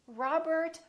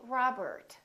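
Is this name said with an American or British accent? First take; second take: American; American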